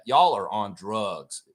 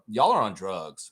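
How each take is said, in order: First: "Y'all are on drugs" dragged out slowly, each word weighted; slow emphatic. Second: Said in the usual way. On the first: Real, not acted. Streamer scolding ESPN, slow deliberate repeat. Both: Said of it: "I'm just gonna say that".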